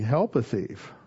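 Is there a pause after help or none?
none. It is said with no pause after help.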